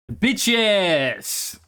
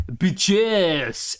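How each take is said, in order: First: A light French-accented "Bitches", lightly imitated; mock French lady drawing out "Bitches" into her phone. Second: A fuller French-accented "Bitches", imitated with more flair. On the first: Retelling the lady on her phone, lightly imitated French accent. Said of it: "she says in a French accent". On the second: Retelling how the French lady said it, imitated French accent. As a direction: give "Bitches" the French lady's attitude and lilt. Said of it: "the energy and intonation".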